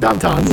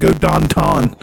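First: Pittsburgh accent, Don Ton for downtown. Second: Pittsburgh accent, downtown said as Don Ton. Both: Shown as a demonstration. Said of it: "That's how they say downtown".

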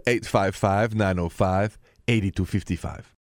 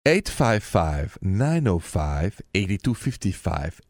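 First: Said in the usual way. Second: Number read very slowly, digit by digit. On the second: Shown as a demonstration. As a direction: spell out the number slowly for callers. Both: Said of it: "repeating the call-in number".

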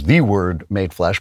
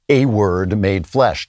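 First: "the" said as a stressed THEE; single out "the" with deliberate weight. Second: "a" said as a full, stressed AY; slow down and lean on the word "a". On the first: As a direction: lean on "the" as the one and only. Contrasts the word with a word. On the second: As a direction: set "a" apart with deliberate weight. Contrasts a word with the word. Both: Real, not acted.

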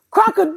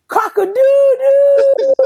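First: Rooster crow impression. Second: High, slow, loud crowing through laughter; rooster crow impression. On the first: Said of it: "Chris look like we know he said". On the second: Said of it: "when Chris nut, he say".

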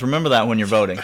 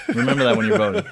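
First: Said in the usual way. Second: A laughing, higher second take; mock warning to voters, laughing; laughing higher repeat. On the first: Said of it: "repeated with a laugh". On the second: Shown as a demonstration. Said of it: "same line said twice".

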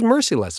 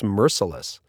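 First: Merciless said MER-see-less, full EE in the middle; mistaken merciless. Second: Merciless with a weak middle, MER-suh-less; corrected merciless. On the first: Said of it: "I thought it was merciless". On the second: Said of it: "Apparently it's merciless". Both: Shown as a demonstration.

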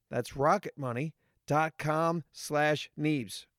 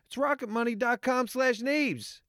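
First: Slow and clear. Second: Higher repeat. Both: Shown as a demonstration. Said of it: "What is that again?".

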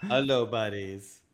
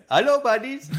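First: Lower, slow drawn-out greeting back; my slow reply. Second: High, bright mock greeting of the store guys; imitating shopkeeper greeting. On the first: Retold or imitated. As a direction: answer the clerks slowly and low. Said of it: "and I'm like". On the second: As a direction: chirp it like the friendly shop clerks. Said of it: "they smile when they see us".

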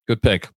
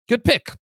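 First: Said in the usual way. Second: High rising "good pick", sung up in mock praise; playful high "good pick" with a rising end. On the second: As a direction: lift "good pick" way up like a teasing cheer. Repeating partner's pick, then plain.

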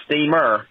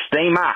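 First: Said in the usual way. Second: "steamer" ending in an open A, "steam-ah"; Australian pronunciation. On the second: Shown as a demonstration. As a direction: drop the R in "steamer", higher pitch. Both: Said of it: "drop the E R and make it an A".

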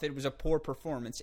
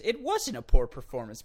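First: Said in the usual way. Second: "wasn't" punched louder with a falling tune; correcting the take, louder on "wasn't"; stress on wasn't. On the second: Shown as a demonstration. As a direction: hit the word "wasn't" hard to correct yourself.

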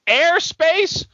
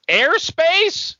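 First: High, mocking repeat; incredulous again. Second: High, outraged question; incredulous. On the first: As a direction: scoff at Airspace once more. Repeated outraged question. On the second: Acted. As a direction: scoff at the word Airspace. Mock outraged old man.

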